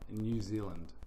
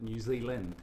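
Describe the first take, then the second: First: It is said loosely in a New Zealand accent. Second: It is said more sharply in an Australian accent. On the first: "being a Kiwi, we would say ... which is quite lazy" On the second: "how the Australians would call it"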